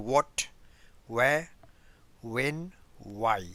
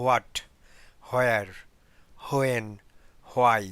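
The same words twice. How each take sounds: First: "what, where, when, why" starting straight on a clean w; "where" as "wear" with no h at all; silent h. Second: "where" said as "hwhere" with a breathy h before the w; "what, where, when, why" each with a sounded h; wrong h-sound. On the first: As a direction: demo the correct wh, h dropped. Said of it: "এইচটা এখানে আপনার silent". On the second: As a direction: demo the incorrect aspirated wh. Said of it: "এগুলো কিন্তু correct না". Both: Shown as a demonstration.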